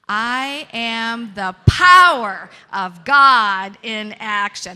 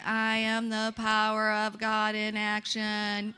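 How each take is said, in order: First: It is said forcefully, with strong energy. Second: It is said flatly, without much energy.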